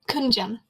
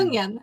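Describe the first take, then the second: First: The second syllable begins with a J sound. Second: The second syllable begins with a Y sound. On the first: The speaker calls it wrong. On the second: The speaker calls it right.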